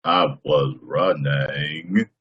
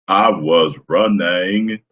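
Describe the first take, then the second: First: Forrest Gump impression. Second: Very slow drawn-out Gump line; slow mock Forrest Gump; Forrest Gump impression. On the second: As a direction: stretch every word like Forrest. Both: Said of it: "Tom Hanks I can do".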